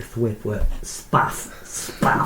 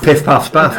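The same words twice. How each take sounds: First: "spaff" said as a soft whispered sound effect, slow. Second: "Piff, paff, spaff" said crisply in normal voice; spaff sound effect. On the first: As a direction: whisper "spaff" like a comic book web sound. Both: Shown as a demonstration. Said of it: "sound effects of".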